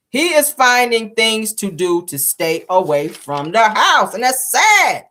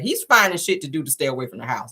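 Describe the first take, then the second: First: "He is finding things to do to stay away from the house" said very slowly, every word weighted; slow emphatic repeat. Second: Said in the usual way. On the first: Real, not acted. Host stresses that the husband avoids home, slow and weighted. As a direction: lean on each word, drawing it out.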